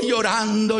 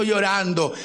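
First: Mock weeping cry. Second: Said in the usual way. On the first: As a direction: cry out llorando like a mourner. Mourners weeping beside the coffin.

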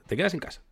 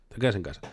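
First: "Te quedas en casa" pitched high, rising on "quedas"; emphatic advice. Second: Said in the usual way. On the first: Acted. ("Te quedas en casa" aguda e insistente)

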